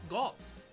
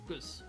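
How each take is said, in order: First: The vowel sounds like 'aw'. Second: The vowel sounds like 'uh'. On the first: The speaker calls it right. "It's Goss" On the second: The speaker calls it wrong. "I say Gus. Why do I say Gus?"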